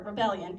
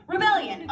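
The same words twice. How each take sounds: First: Said in the usual way. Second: Rebellion said higher and punched, with a falling finish; emphatic Rebellion. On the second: Shown as a demonstration. Vlogger repeating her favourite word, Rebellion, emphatically. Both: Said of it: "I'm gonna keep saying it".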